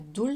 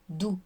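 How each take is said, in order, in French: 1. Le mot se termine par un son L. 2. Le mot se termine sur une voyelle, sans L. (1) "ça ne sera pas doul" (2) "ça sera dou"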